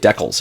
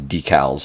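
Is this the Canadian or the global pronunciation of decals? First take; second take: Canadian; global. First: It is said the Canadian way. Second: It is said the usual global way. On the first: "we Canadians say decals" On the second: "globally it says decals"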